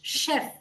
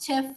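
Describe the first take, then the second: First: The word begins with an sh sound. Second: The word begins with a ch sound. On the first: The speaker calls it right. "Like sh, chef" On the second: The speaker calls it wrong. "The first word is not chef"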